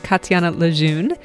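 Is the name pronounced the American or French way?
American. The name is pronounced with American English sounds. "The American way is"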